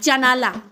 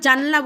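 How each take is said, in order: First: The word is said in three syllables. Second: The word is said in two syllables. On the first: This is the local everyday form. "বলি জানালা" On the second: This is the form not used locally. "আমরা জানলা বলি না"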